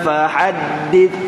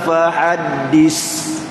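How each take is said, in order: First: The final consonant is a soft 'th' sound. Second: The final consonant is a whistling 's' sound. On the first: The speaker calls it right. "tahan fahaddits" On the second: The speaker calls it wrong. "itu jadi rusin ya safir"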